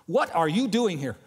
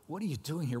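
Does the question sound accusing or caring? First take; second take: accusing; caring. First: The question sounds stern and accusing. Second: The question sounds gentle and caring. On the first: The asker is rebuking the listener. The speaker calls it wrong. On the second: The asker is offering help. The speaker calls it right. "it's more, ... What can I do for you? That's more the tone"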